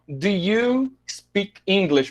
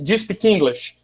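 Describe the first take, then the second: First: The word 'do' has a full, clear vowel. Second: The word 'do' is reduced to a schwa. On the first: The speaker calls it wrong. "você não ouve a expressão" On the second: The speaker calls it right. "mas sim ... Por causa desse sonzinho ... que é o schwa"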